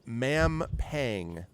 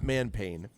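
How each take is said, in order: First: The name ends with the sound 'pang'. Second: The name ends with the sound 'pain'. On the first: The speaker calls it right. "it's Mampang, M A M P A N G" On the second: The speaker calls it wrong. "not man pain"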